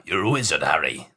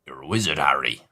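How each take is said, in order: First: Put-on deep, low West Country Hagrid accent; lightly done Hagrid accent. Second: Put-on deep low West Country Hagrid accent, retried; low rumbling Hagrid accent. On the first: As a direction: lower and broaden into the Hagrid accent. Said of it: "I lost the accent". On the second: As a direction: drop lower, hold the Hagrid accent. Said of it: "that's it again".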